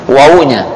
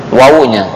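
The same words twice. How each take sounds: No difference in how they are said.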